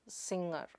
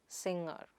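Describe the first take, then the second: No difference in how they are said.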